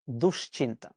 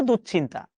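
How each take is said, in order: First: দুশ্চিন্তা much lower and softer, careful; the right দুশ্চিন্তা, quiet and low; correct pronunciation. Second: দুশ্চিন্তা said as people commonly say it; the rejected দুশ্চিন্তা; wrong pronunciation. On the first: (শুদ্ধ উচ্চারণে দুশ্চিন্তা, নিচু স্বরে) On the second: (ভুল উচ্চারণে দুশ্চিন্তা) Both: Shown as a demonstration.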